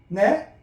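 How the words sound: The pitch rises at the end. The listener did not catch what was said. "끄트머리 올려야죠?"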